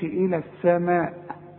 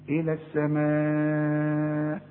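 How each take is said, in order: First: The vowel before the final hamza is short. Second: The vowel before the final hamza is drawn out. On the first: The speaker calls it wrong. "ما تقولش" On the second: The speaker calls it right. "لازم تمد المد ده 4 حركات او 5 حركات عند الوقف"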